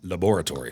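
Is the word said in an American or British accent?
British. It is said in an English accent.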